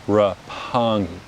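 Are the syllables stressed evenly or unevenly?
unevenly. Syllables are stressed unevenly and strongly aspirated. "an American will over aspirate it, and they will stress and unstress syllables"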